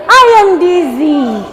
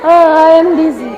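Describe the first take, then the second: First: Drawn-out teacher reading; slow read-aloud. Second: Mock dizzy groan on "Oh"; acted dizziness. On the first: Shown as a demonstration. Teacher reads the book line to pupils, slow read-aloud. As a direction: read it slowly for children to follow. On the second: Teacher shows pupils what dizzy means, acted wooziness. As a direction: act a little woozy to show the meaning. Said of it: "Apa itu artinya dizzy?".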